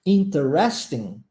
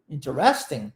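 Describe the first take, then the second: First: "Interesting" slow, with every syllable sounded, in-ter-es-ting; British interesting. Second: "Interesting" clipped to three syllables, intrest-ing; quick American "Interesting", dropping the middle syllable. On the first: Teacher contrasting British and American "Interesting". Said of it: "uma outra forma de pronunciá-la". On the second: Teacher giving the American "Interesting" after the British one. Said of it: "Interesting mais pro inglês americano canadense". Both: Shown as a demonstration.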